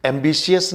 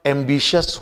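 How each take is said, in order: First: एम्बिशियस ending in 'si-us', 'am-bi-si-us'; wrong pronunciation. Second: एम्बिशियस said as 'am-BI-shus', no i after sh; correct pronunciation. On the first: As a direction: sound the i in एम्बिशियस as 'see-us'. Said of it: "एम्बिशियस नहीं होगा". (एम्बिशियस का गलत उच्चारण, 'एम्बिसियस') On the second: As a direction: end एम्बिशियस on a plain 'shus'. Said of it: "एम्बिशियस होगा". (एम्बिशियस का सही उच्चारण, 'एम्बिशस') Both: Shown as a demonstration.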